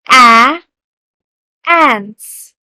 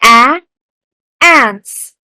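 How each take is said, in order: First: A loud A and a calm ants to echo; teacher modeling again. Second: Loud A sound, then ants said slowly; a loud A then a clear ants for the class to repeat; teacher modeling. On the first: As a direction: stress the A, then the whole word ants. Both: Shown as a demonstration. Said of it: "Repeat after me".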